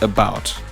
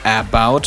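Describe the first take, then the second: First: The first vowel is reduced to a schwa. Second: The first vowel is a full, unreduced vowel. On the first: The speaker calls it right. "but about" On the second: The speaker calls it wrong. "you don't say about"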